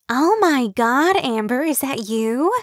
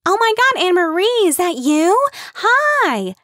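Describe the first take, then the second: First: High, slow, gushing surprise; excitable gushing. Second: Very high, loud squealing greeting; excited calling out. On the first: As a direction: stretch it out like spotting an old friend. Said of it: "always sounded breathless". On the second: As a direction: call across the picnic to a friend. Kim spots a friend, calls out. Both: Acted.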